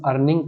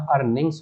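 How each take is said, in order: First: अर्निंग said without the final s, ending on the ng; wrong singular form. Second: अर्निंग्स said with a clear final s after the ng; correct plural form. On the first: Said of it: "अर्निंग कभी नहीं होता". (अर्निंग बिना एस के, गलत रूप) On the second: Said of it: "अर्निंग्स होता है". (अर्निंग्स साफ़ एस के साथ, सही रूप) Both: Shown as a demonstration.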